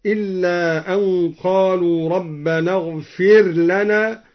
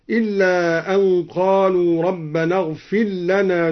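First: اغفر لنا with the r sounded before lana; clear ra. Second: اغفر لنا run together as "ighfil-lana"; merged ra. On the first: Teacher showing al-Duri's first way, clear r in اغفر لنا. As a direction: keep the r of اغفر distinct, "ighfir lana". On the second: Teacher showing al-Duri's second way, اغفر لنا as "ighfil-lana". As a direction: melt the r of اغفر into a doubled l. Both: Shown as a demonstration. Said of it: "قرأ الدوري بإدغام الراء وإظهارها".

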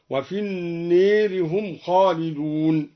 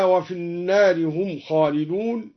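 First: النار with the long a leaned toward e, slow; imala on an-nar. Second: Said in the usual way. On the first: Shown as a demonstration. (النار بالإمالة) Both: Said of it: "بالإمالة أيضًا".

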